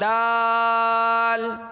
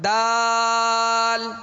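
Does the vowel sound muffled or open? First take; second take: open; open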